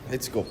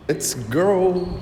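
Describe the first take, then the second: First: Said in the usual way. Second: Excited call. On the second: Real, not acted. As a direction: call out eagerly to follow. Repeats let's go, second louder.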